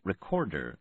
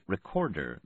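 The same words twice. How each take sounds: First: All three R sounds are carefully pronounced. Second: All three R sounds are carefully pronounced.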